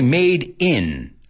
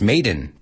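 First: The two words are separated by a pause. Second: The two words are joined without a pause. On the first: The speaker calls it wrong. "So we don't say made in" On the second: The speaker calls it right. "Lo juntamos"

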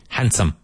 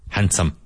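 First: The D sound is left out in the middle. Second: The same.

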